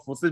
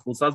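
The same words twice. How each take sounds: First: फोर्सेज with a short "sis" ending; one pronunciation. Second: फोर्साज with an open "saas" ending; other pronunciation. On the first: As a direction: say फोर्सेज, keeping the second syllable short and close. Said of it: "चाहे तो आप फोर्सेज बोलो". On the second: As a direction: say फोर्साज, opening the second vowel to "aa". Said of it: "चाहे तो आप फोर्साज बोलो". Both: Shown as a demonstration.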